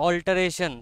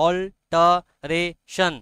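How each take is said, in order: First: Said in the usual way. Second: অল্টারেশন said slowly in four separate syllables; broken into syllables. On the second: Shown as a demonstration. Teacher shows students the syllables of অল্টারেশন, each one separated. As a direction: chop অল্টারেশন syllable by syllable with gaps. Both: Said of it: "syllable ভাঙলে কি হবে?".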